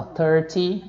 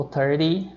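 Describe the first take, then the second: First: Said in the usual way. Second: American "thirty", the T turned to a quick D; American pronunciation. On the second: Shown as a demonstration. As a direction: say "thirty" like "thirdy". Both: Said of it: "é o som mais próximo do".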